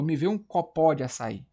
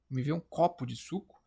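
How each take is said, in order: First: Copó as co-PÓ, open final vowel; copó deliberately mis-stressed; stress on last syllable. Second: Copo stressed CÓ-po in a sample request; stress on first syllable. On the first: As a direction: hit the PÓ at the end of copó. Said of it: "Ou eu falo". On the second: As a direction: keep the weight on CÓ in copo. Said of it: "Cara, eu falo". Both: Shown as a demonstration.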